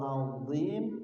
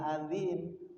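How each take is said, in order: First: The middle consonant is heavy and thick. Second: The middle consonant is light and thin. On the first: The speaker calls it right. "shadaqallahul azim tidak adzim" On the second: The speaker calls it wrong. "adzim itu dal"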